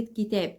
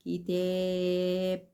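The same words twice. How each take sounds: First: Said in the usual way. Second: "كتاب" drawn out very slowly, sound by sound, on a level pitch; stretched-out word. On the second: Shown as a demonstration. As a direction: hold the long vowel in "كتاب" so a child can follow each letter. (مدّ كلمة "كتاب" ببطء شديد حرف بحرف) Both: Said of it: "تعملي له كده".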